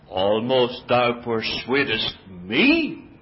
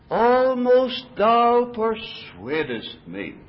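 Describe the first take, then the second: First: It is said with a scornful, mocking tone. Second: It is said sincerely, stressing persuadest. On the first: "Did King Agrippa say it like this? ... A note of scorn?" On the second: He was truly moved close to believing. "Do you think the emphasis fell on the word persuadest?"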